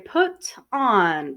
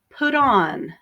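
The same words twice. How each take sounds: First: The T is pronounced clearly between words. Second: The T is softened and links into on. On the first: "now if it's correct, I will say put on... you can hear the T more clearly" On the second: "we will soften the T and we won't hear it very much"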